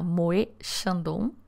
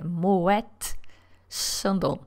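First: The t at the end of Moet is silent. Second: The t at the end of Moet is pronounced. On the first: The speaker calls it wrong. "Se você acha que eu pronunciei errado, que era Moet Chandon" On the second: The speaker calls it right. "quem está errado é você, é Moet Chandon"

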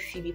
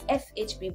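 First: The name is said as a single word. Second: The name is spelled out letter by letter. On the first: The speaker calls it wrong. "that's not the pronunciation" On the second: The speaker calls it right. "It is FHB by Pam"

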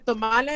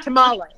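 First: The word has a Spanish-style pronunciation. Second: The word has an American English pronunciation.

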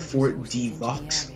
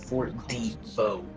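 First: The final x sound is pronounced. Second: The final x sound is silent. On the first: The speaker calls it wrong. "I used to call it" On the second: The speaker calls it right. "they always pronounce it"

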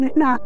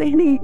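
First: The word ends with an a vowel. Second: The word ends with an ee vowel. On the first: This is the form the speaker's group does not use. "وما يقولون هنا" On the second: This is the local village dialect form. "إحنا نقول هني"

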